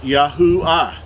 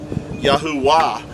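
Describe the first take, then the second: First: The name is said without an added w sound. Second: The name is said with an added w sound. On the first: The speaker calls it right. "So his name would be pronounced Yahuwah" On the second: The speaker calls it wrong. "some people would even pronounce it Yahuwah"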